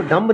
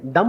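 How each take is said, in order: First: डम्ब with the B pronounced; डम्ब ending in a clear "b"; wrong pronunciation. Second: डम with no B at the end; डम, the B dropped; silent B. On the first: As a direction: sound the final B in डम्ब. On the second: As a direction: say डम ending on M. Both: Shown as a demonstration. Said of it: "B silent है".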